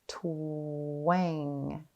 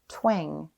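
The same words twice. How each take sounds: First: The word is stretched out slowly, sound by sound. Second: The word is said quickly as one smooth unit. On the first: "Tap and stretch" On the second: "Say it fast"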